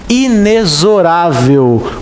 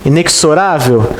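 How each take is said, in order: First: The x is pronounced as a z sound. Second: The x is pronounced as a ks sound. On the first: The speaker calls it right. "com som de Z" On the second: The speaker calls it wrong. "O som parece esse"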